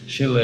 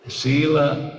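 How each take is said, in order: First: The word is said with a short vowel. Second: The word is said with a long vowel. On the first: "Shila is a short vowel" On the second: "Shila is a long"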